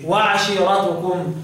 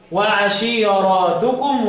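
First: وعشيرتكم with a short a after the r; slow وعشيرتكم, no lengthening after the r; singular reading. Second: وعشيراتكم with a long aa after the r; drawn-out plural ending in وعشيراتكم; Shu'ba's plural reading. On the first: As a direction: recite وعشيرتكم slowly as wa-'ashiiratukum. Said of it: "والباقي يقول إيه؟". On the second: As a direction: recite وعشيراتكم slowly as wa-'ashiiraatukum. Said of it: "يقول إيه؟". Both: Shown as a demonstration.

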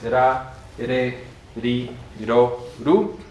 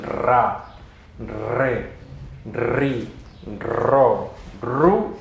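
First: Ra, re, ri, ro, ru with a light tap; soft r. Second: Ra, re, ri, ro, ru each trilled and spaced; strong rolled r. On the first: Teacher restates correct Esperanto, ra re ri ro ru lightly tapped. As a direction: flick each r once in ra, re, ri, ro, ru. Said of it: "Aunque la pronunciación es". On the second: Teacher allows Spanish style, ra re ri ro ru trilled. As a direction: roll every r in ra, re, ri, ro, ru. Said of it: "si ustedes la pronuncian". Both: Shown as a demonstration.

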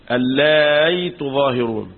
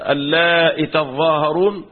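First: Slow اللائي said as allaay, ya replacing the hamza; hamza turned to ya. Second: Slow اللائي ending in a short hamza-i, no long ee; ya dropped after hamza. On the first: Teacher demonstrating a variant reading, اللائي with ya for hamza. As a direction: glide into a y in اللائي, no glottal stop. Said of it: "وقلبت بإبدال الهمزة ياء،". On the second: Teacher demonstrating a variant reading, اللائي with short hamza and no ya. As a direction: cut the final ya of اللائي, keep the hamza. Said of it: "بحذف الياء بعد الهمزة". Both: Shown as a demonstration.

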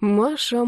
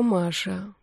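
First: Said in the usual way. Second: Маша dropped much softer; softer Маша, a sad shake of the head; quiet. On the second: A narrator's reading. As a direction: let the second Маша fall to a near hush. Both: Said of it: "сказал негромко".

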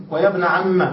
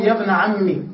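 First: "عم" said "amma", ending in a; fatha ending. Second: "عمي" ending in an i vowel; kasra ending. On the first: Teacher giving a similar example, a ending. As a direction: close "ابن عم" on an open a. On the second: Teacher giving a similar example, i ending. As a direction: close "يا ابن عمي" on i. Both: Shown as a demonstration. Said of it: "ومثله".

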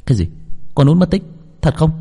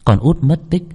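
First: Higher, startled, can't believe it; shocked disbelief. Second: Disbelief. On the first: Boy hearing his friend vanished, shocked disbelief. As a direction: jolt up hearing the news. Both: Acted. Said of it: "đôi mắt trợn như không thể tin nổi".

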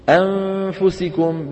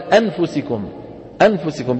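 First: أنفسكم slow, with the n hidden and nasal. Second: أنفسكم with the n pronounced fully; clear n. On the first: Teacher models the correct hidden n in أنفسكم, slow and drawn out. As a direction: draw out أنفسكم and hide the n. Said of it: "بدك تخفي النون". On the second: Teacher shows the wrong, fully pronounced n in أنفسكم. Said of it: "بإظهار النون". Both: Shown as a demonstration.

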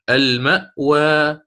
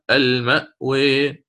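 First: Slow المأوى ending on open aa; open fath reading. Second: Slow المأوي ending on a long "eh"; taqlil reading. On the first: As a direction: draw out المأوى as "al-ma'waa". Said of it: "والفتح مقدم دائمًا". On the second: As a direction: draw out المأوي as "al-ma'wee". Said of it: "فهذه فيها الخلف". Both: Shown as a demonstration.

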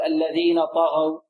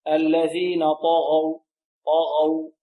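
First: الذين طغوا with light, thin ط and غ; wrong طغوا. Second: Slow الذين طغوا, full heavy ط and غ; correct heavy طغوا. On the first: Teacher shows the mistake to avoid, thin light طغوا. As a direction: drop the heaviness from ط and غ in طغوا. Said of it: "لا نقول". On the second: Teacher corrects students' reading, slow heavy طغوا. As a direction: draw out طغوا with emphatic ط and غ. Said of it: "لا نقول الذين طغوا". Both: Shown as a demonstration.

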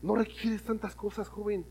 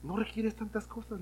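First: Quiet, slow, earnest; soft appeal. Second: Even quieter, slow; soft repeat. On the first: Preacher quietly telling youth they need little. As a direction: draw them in gently. Preacher softly applying the lesson. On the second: Preacher softly repeating the lesson to youth. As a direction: let it sink in softly. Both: Acted.

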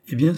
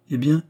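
First: EH BIEN as the start of an answer; "eh bien" without a question, leading on. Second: High, rising EH BIEN; short questioning "eh bien" that lifts at the end; prompting question. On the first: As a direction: say "eh bien" as a firm lead-in to the verdict. Jeanne answers the prompt. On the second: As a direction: ask "eh bien" higher, waiting for the rest. Oliva anxiously prompts for the rest. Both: A narrator's reading.

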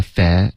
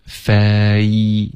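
First: "fa-" cut to a single eh vowel, no glide; wrong monophthong. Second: "fa-" drawn out, gliding from eh into ee; slow, stretched "fa-" with a full vowel glide; diphthong. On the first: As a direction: say "fa-" with one unmoving vowel. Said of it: "这是一个单元音". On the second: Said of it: "要注意双元音". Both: Shown as a demonstration.

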